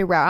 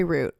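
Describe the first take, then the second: First: "route" rhyming with "out"; route as "rout". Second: "route" rhyming with "boot"; route as "root". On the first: Podcaster correcting own word, "route" pronounced "rout". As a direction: say "route" with an "ow" vowel. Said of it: "I think I say route". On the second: Podcaster disowning a pronunciation, "route" said "root". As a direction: say "route" with an "oo" vowel. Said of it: "I don't say route". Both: Shown as a demonstration.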